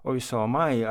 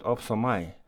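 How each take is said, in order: First: "Oi, so am I" opening on a vowel glide, no p; correct Greek form. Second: "Op, so am I" with a p closing the first syllable; mistaken Greek form. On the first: Boy tells mother the form he should have said, correct Greek form. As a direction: say "Oi, so am I" with a gliding first sound. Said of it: "instead of saying". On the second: Boy confesses his exam slip to mother, mistaken Greek form. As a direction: say "Op, so am I" with a stopped first sound. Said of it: "I said". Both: Acted.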